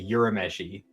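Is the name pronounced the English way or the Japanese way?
English. The name is said with English pronunciation. "the Funimation dub where they say Urameshi"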